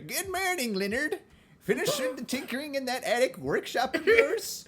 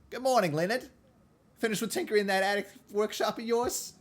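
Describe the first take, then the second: First: The voice sounds like an elderly woman. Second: The voice does not sound old.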